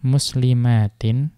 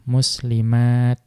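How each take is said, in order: First: The word ends with t and a nasal. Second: The word ends with a bare t.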